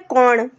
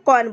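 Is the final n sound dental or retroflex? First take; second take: retroflex; dental. First: The final n is a retroflex n sound. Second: The final n is a plain dental n sound. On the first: This is how the regional dialect says it. "लेकिन यहाँ पे क्या बोला जाता है?" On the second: This is the ordinary standard pronunciation. "हम normally क्या बोलते हैं? कौन बोलते हैं"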